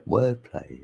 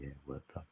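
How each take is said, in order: First: Said in the usual way. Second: Wordplay echoed to yourself, much softer; barely audible repeat. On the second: Real, not acted. Streamer muttering wordplay to himself, much softer. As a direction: say wordplay again almost under your breath, much softer. Repeating own word to chat.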